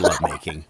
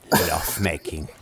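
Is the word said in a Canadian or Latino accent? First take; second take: Canadian; Latino. First: It is said in a plain Canadian accent. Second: It is said in a Latino accent. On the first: The speaker calls it wrong. "You can't say lovemaking" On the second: The speaker calls it right.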